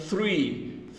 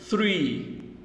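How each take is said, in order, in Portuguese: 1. Começa com som de TH suave. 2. Começa com som de TH suave.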